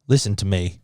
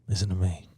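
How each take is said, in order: First: It is said at a raised pitch. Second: It is said at a lower pitch.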